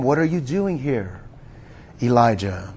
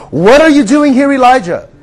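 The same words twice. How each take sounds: First: Much lower and softer, hushed and tender; gentle whisper. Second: Loud, high, challenging call; booming voice of God. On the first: God speaks to Elijah in a gentle whisper, hushed and low. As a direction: breathe the question like a still small voice. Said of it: "came a gentle whisper". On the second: God calls to Elijah in the cave, booming and loud. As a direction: thunder the question down at him. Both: Acted.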